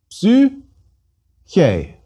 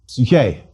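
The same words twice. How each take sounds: First: Psyche in two widely separated syllables, pitched higher. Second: Said in the usual way. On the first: Shown as a demonstration. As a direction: say Psyche slowly with a long gap between its syllables.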